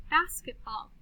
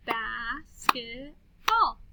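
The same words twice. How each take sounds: First: Said in the usual way. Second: BASKETBALL very slowly, bas-ket-ball; slow syllable-by-syllable "Bas-ket-ball"; clapped syllables. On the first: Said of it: "listen to these words". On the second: Shown as a demonstration. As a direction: stretch "Basketball" into three separate beats. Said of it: "then we'll clap the syllables".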